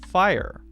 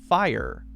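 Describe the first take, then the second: Both takes have the same delivery.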